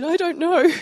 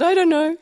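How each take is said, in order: First: High, loud, bewildered little voice; teen me. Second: High, louder bewildered voice, said again; a helpless kid who can't explain her tears; teen me. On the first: Teen answering her youth leader, high and helpless. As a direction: sound like a confused young teen. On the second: Teen repeating her answer to her youth leader, high and helpless. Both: Retold or imitated. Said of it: "I said".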